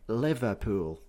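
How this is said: Every syllable is said in full.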